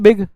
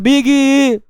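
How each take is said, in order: First: The word ends cleanly on the final consonant. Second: An extra vowel is added after the final consonant. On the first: The speaker calls it right. "एक बार में बोलो ना बिग" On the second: The speaker calls it wrong. "बिगी नहीं बोलना"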